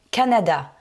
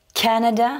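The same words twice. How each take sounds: First: Said in the usual way. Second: CAnada, first syllable raised and punched; stress on first syllable. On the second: Shown as a demonstration. Teacher modelling Canada for French learners, stress on CA. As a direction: hit the CA of Canada in English. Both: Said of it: "j'ai insisté sur la première syllabe".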